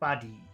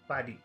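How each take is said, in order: First: The first vowel is short, the second long. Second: Both vowel sounds are short. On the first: "If we did short long, it would sound like this" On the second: "If we made both of the sounds in number one short, it should sound like this"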